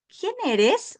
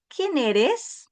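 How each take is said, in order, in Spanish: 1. La entonación cambia como en una pregunta. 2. La entonación cambia como en una pregunta.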